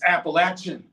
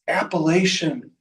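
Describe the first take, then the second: First: The middle is said like 'apple-atch'. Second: The middle is not said like 'apple-atch'. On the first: The speaker calls it right. "I throw an apple at you, or you got an itch" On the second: The speaker calls it wrong. "Hold it right there"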